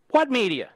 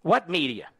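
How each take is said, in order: First: Scornful repeat. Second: Said in the usual way. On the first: Acted. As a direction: throw the question back with contempt. Rhetorical question repeated twice.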